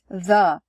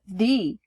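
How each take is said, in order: First: The vowel is short and weak, like 'duh'. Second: The vowel is long and bright, like 'tree'. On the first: "The most common pronunciation is the, rhyming with duh" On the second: "And the other one is the. It rhymes with tree"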